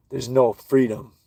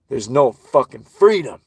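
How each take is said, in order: First: Said in the usual way. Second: "freedom" punched loud with a falling pitch; emphatic repeat. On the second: Real, not acted. Ranting about enslaved people, loud stress on "freedom". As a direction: hit "freedom" hard and loud, then drop. Rant line repeated with force.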